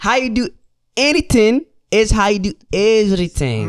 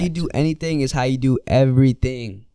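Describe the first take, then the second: First: It is said in a Habesha accent. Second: It is said in the speaker's ordinary accent.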